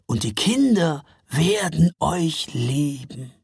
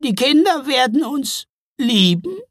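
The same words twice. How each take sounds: First: Slow, reassuring Father Frost; promising. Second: High, loud wondering question; touched. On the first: Father Frost promising the trolls children's love, reassuring. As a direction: promise it unhurriedly in a calm voice. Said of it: "versprach Väterchen Frost". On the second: Trolls hearing that children will love them, touched. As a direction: ask in moved disbelief, rising at the end. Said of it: "klangen richtig gerührt". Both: A narrator's reading.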